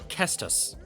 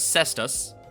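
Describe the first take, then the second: First: The word begins with a K sound. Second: The word begins with an S sound. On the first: This is closer to the Latin origin. "Which is closer to its Latin origin" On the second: This is the most common pronunciation. "most commonly pronounced as Cestus"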